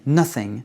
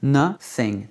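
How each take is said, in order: First: "Nothing" as one word, NUH-thing; O as U, joined. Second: "Nothing" in two separated syllables, NUH, thing; O as U, split. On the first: Teacher repeats the whole word, joined "Nothing". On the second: Teacher breaks it down for learners, split "Nothing". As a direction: break "Nothing" apart with an uh vowel. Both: Shown as a demonstration. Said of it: "C'est pas un o, c'est un u".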